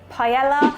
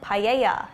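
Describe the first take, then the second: First: The word is said with an English pronunciation. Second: The word is said with a Spanish pronunciation. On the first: "We say paella" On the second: "Isn't that how they pronounce it in Spain?"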